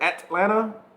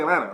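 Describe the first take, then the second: First: Only one t sound is pronounced. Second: Neither t sound is pronounced. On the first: "let you slide with one T" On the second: "both T's are silent"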